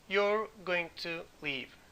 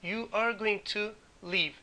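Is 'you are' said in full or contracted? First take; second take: contracted; full. First: 'You are' is shortened to one syllable, 'you're'. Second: 'You are' is said as two full words.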